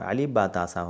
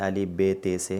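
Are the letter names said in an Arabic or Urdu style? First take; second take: Arabic; Urdu. First: The letter names end in an 'a' vowel. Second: The letter names end in an 'e' vowel. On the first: The speaker calls it right. "होता है अरबी लहजा" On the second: The speaker calls it wrong. "ये है उर्दू"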